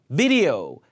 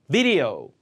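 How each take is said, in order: The two takes are said the same way.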